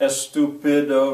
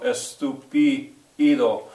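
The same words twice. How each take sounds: First: The vowel after the t is a short 'i'. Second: The vowel after the t is an 'ee' sound. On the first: The speaker calls it wrong. "It's never a short I" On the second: The speaker calls it right. "The letter I has the sound E"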